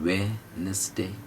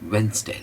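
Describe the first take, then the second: First: The word is said in three syllables. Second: The word is said in two syllables. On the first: The speaker calls it wrong. "वेनसडे में तीन हो जाते हैं, वेनसडे नहीं" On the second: The speaker calls it right. "होठों को गोल करना है और दो ही टुकड़ों में बोलना है"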